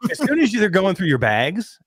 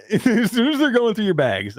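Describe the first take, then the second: First: Said in the usual way. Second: Laughing. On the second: Real, not acted. Repeats phrase while laughing.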